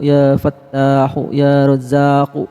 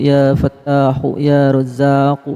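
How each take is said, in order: Both takes have the same delivery.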